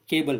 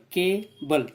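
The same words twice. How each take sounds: First: Said in the usual way. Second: cable broken slowly as के, बल; split into two syllables. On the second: Shown as a demonstration. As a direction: say cable in two separate drawn-out beats. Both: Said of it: "इसको दो बार बोलना पड़ता है".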